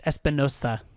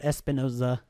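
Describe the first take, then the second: First: The middle consonant is a hissing s sound. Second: The middle consonant is a buzzing z sound. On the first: The speaker calls it right. "It's Espinosa" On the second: The speaker calls it wrong. "not Espinoza"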